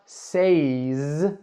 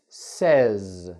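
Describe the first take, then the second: First: The vowel is the same as in say. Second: The vowel differs from the one in say. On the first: The speaker calls it wrong. "It's not says" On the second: The speaker calls it right. "I change the vowel sound when I say this word"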